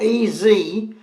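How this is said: The Z is said as zee.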